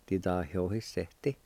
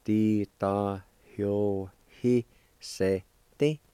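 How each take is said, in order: First: Said in the usual way. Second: Very slow, a pause after every syllable; teacher sounding out a word piece by piece; syllable-by-syllable demonstration. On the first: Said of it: "it's pronounced like this". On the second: Shown as a demonstration. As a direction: break the word into separate drawn-out syllables. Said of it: "and it's pronounced like this".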